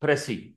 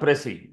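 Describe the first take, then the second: Both takes have the same delivery.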